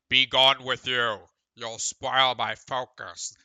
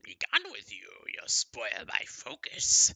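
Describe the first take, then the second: First: It is said in a plain British voice. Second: It is said in a silly skeleton voice.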